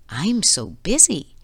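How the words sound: It sounds happy and cheerful.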